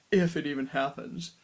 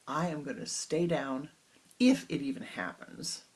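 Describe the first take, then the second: First: Louder mock of the cheeky line; mocking the disciple. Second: Stubborn, a bit louder; defiant. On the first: Guru laughingly parrots his disciple, mocking. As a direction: throw his words back at him, teasing. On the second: Acted. Disciple talking back to his guru, defiant. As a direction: challenge the guru, cheeky. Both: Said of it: "this is not such a nice way to talk to your guru".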